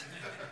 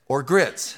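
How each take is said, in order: First: Barely audible aside. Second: Said in the usual way. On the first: Shown as a demonstration. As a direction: whisper the words "Or grits." as a throwaway afterthought. Repeats joke as aside.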